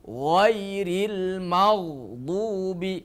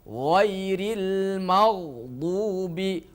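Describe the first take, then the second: No difference in how they are said.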